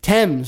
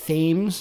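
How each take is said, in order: First: The word begins with a plain 't' sound. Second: The word begins with a 'th' sound. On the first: The speaker calls it right. "I didn't say the TH" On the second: The speaker calls it wrong. "it looks like Thames"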